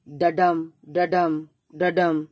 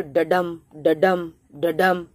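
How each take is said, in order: First: ডাডাম as da-DUM, light then stressed beat; da-DUM rhythm. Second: ডাডাম said as da-DUM, weak then stressed beat; da-DUM rhythm. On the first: Teacher demonstrating the iambic beat again. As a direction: beat out the iamb. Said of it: "এরকম আমরা উচ্চারণ করলাম". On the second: Teacher demonstrating the iambic beat to students, da-DUM. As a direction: tap out the iamb in the voice. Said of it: "এর উচ্চারণটা কি হবে?". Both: Shown as a demonstration.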